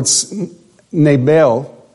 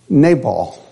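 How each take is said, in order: First: The name is said with a Hebrew pronunciation. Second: The name is said with an English pronunciation.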